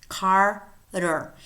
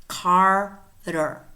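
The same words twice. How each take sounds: The two takes are said the same way.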